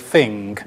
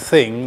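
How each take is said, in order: First: It starts with an f sound, London style. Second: It starts with a standard th sound.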